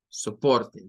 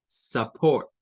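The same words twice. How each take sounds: First: Said in the usual way. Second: "support" said "sapor" with a light schwa. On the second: Shown as a demonstration. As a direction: say "support" as "sə-port", unstressed first vowel. ("support" pronunciado "sə-pórt", con schwa suave al inicio) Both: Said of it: "va a sonar a support".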